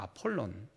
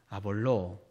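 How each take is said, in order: First: The name ends in an n sound. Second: The name ends in a vowel sound. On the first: This is the original form of the name. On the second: This is the usual Korean Bible form.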